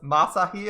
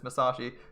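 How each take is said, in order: First: The name is said without the 'sh' sound. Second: The name is said with the 'sh' sound. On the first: The speaker calls it wrong. "almost said that wrong. I was like Mas- Masahi" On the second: The speaker calls it right. "I realized it's Masashi"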